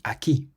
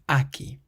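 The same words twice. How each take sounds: First: The stress is on the last syllable. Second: The stress is on the first syllable. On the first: The speaker calls it right. "has an accent on the I, so we say aquí" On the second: The speaker calls it wrong. "rather than aquí"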